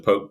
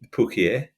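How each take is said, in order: First: The word is said plainly, as one syllable. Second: The word is said in an exaggerated, fancy way. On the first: The speaker is being honest and unpretentious. The speaker calls it right. "there's an honesty of sort of going it's a poke bowl" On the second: The speaker is showing off. The speaker calls it wrong. "really overpronouncing it"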